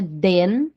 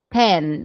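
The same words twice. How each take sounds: First: "den" with a voiced D; wrong TEN as den. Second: "ten" with an aspirated T; a crisp T sound opening "ten". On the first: Teacher shows what not to say, D for T. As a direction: turn the T into D, "den". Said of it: "Não é den". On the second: Teacher models the number ten, with a clear T. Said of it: "é o som de T". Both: Shown as a demonstration.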